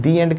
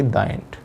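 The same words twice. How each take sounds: First: "the" said "dee" before "end"; "the" with an ee vowel, gliding into "end"; "thee" before vowel. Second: "the" said "daa" before "end"; softer, "the" with an open aa vowel before "end"; wrong "the". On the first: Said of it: "इसलिए हम the end कहते हैं". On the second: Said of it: "ना कि". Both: Shown as a demonstration.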